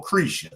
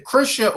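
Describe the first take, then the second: First: Krisha with a long ee, as in "creek". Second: Krisha with a short i, as in "crisp". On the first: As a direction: say Krisha as KREE-shuh. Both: Shown as a demonstration. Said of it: "did I pronounce your name right".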